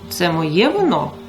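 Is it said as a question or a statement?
question. It is said with question intonation.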